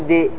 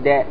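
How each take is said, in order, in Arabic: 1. يشبه الارتداد بعد الحرف صوت 'i'. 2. يشبه الارتداد بعد الحرف صوت 'a'. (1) "ما تقول دي" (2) "تقول دا"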